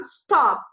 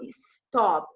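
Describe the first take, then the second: First: "stop" said cleanly, starting straight on the s with no vowel before; the right way, "stop" with no leading i; correct stop. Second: "stop" said as "istop" with an added i sound before the s; the wrong way, "istop" with a leading vowel; wrong Brazilian stop. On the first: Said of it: "eu falo stop". ("stop" pronunciado certo, começando direto no s, sem i) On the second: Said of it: "Eu não falo stop". ("stop" pronunciado errado como "istop", com i no começo) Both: Shown as a demonstration.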